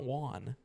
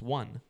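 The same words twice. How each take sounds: First: The vowel does not match the word 'one'. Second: The vowel matches the word 'one' exactly. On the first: The speaker calls it wrong. "It's not won" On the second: The speaker calls it right. "like O N E, one"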